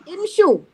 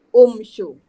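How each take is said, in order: First: The word begins with an i vowel. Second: The word begins with a u vowel. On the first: The speaker calls it right. "Kalau kita ambil imshu" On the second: The speaker calls it wrong. "tak boleh guna umshu. Mesti baris bawah"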